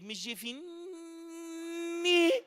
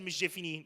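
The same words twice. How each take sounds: First: The N sound in the name is emphasized. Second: The N sound in the name is plain. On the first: The two people have a formal relationship. "So I decided to make up for the disrespect" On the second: The two people are friends. "Nobody said it like that"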